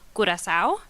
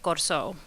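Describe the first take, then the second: First: The name is said with a Spanish pronunciation. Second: The name is said in the local Creole form. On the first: "In Spanish" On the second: "in a Portuguese Creole that is local to the island"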